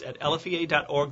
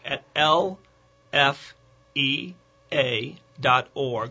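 First: It is said at a quick pace. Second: It is said more slowly.

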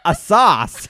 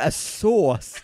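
First: Sauce is said with an American vowel. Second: Sauce is said with a British vowel. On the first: "It hurts my vocal cords to try and say it American" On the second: "I'm British"

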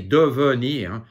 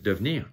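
First: The second E is pronounced as a full syllable. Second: The second E is dropped, giving two syllables. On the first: "The second E, you can say devenir" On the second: "but mostly it's just devenir"

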